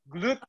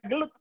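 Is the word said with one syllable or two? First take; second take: one; two. First: It is said as one syllable, glut. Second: It is said as two syllables, like gulat. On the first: It names the glucose transporter. The speaker calls it right. "Glucose transporter" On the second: It sounds like the word for wrestling. The speaker calls it wrong. "Bukan GLUT"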